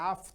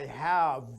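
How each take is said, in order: First: The word ends with an f sound. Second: The word ends with a v sound. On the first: "when to is following have, it became an f sound" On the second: "not a v sound"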